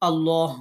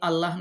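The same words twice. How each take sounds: First: The L is heavy and full. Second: The L is thin and light. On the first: The speaker calls it right. "আল্লাহ বলবেন" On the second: The speaker calls it wrong. "আপনি আল্লাহ না বলে"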